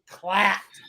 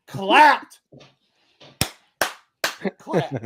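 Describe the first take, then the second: First: Said in the usual way. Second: Whisper. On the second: Real, not acted. Whispered repeat.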